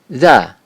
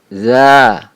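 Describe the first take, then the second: First: The vowel is short, one beat. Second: The vowel is held long, two beats. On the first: The speaker calls it wrong. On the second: The speaker calls it right. "dibaca panjang dua ketukan"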